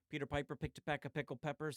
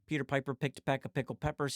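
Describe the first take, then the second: First: The voice is recorded twenty decibels quieter. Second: The voice is recorded ten decibels quieter. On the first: "switch it to negative twenty D B" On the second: "going to negative ten"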